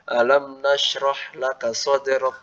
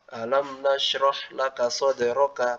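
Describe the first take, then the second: First: The last word ends on a bare consonant. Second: The last word ends with a short vowel. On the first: The reader stops at the end of the verse. "kaf sakinah indal waqaf" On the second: The reading continues on without stopping. "dibaca seperti aslinya"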